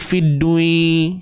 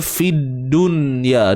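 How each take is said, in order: First: The nun sound merges into the following ya. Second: The nun sound is pronounced clearly before ya. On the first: The speaker calls it wrong. "dia takkan jadi fidui" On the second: The speaker calls it right. "Dibaca dengan izhar"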